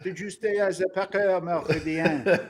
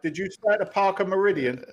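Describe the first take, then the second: First: The hotel name is said in a French accent. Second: The hotel name is said in an American accent.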